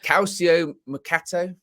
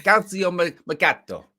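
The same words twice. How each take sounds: First: Slow, higher-pitched, questioning "Calcio Mercato"; unsure pronunciation. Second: Higher, louder amateur Italian accent; attempted Italian accent. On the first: Real, not acted. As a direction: say "Calcio Mercato" tentatively, with no Italian accent. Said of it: "I can never pronounce this name". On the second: Shown as a demonstration. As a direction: have a go at "Calcio Mercato" in a put-on Italian accent. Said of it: "I can't really do an Italian accent".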